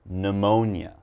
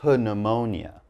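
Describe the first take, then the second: First: The word starts with an N sound. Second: The word starts with a P sound. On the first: The speaker calls it right. "The P is silent. So all I'm going to say is" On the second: The speaker calls it wrong. "I'm not going to say pneumonia"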